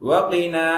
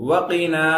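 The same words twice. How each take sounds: The two takes are said the same way.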